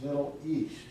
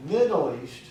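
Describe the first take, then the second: First: "Middle East" with the weight on EAST; stress on EAST. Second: "Middle East" with MIDDLE hit louder on its first syllable; stress on MIDDLE. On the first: Shown as a demonstration. Evaluator modelling the usual phrase, Middle East stressed on EAST. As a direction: let the stress fall on the last word of "Middle East". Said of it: "We usually stress the last syllable". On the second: Retold or imitated. Evaluator imitating the speaker's mistake, Middle East stressed on MID. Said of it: "you stressed the first syllable".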